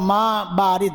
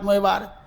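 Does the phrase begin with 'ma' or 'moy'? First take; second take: ma; moy. First: It is said in the standard Arabic pronunciation. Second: It is said in a distorted local pronunciation. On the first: This is the intended phrase meaning cold water. The speaker calls it right. "পরে বুঝলাম মা বারিদ" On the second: This is how the street vendors said it. The speaker calls it wrong. "ওটাকে বিকৃত করে বলে ময় ভারত ময় ভারত"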